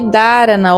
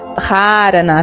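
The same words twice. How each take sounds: First: The h after the d is silent. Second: The h after the d is audibly breathed. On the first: This is the everyday way people say it. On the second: This is closer to the original Sanskrit.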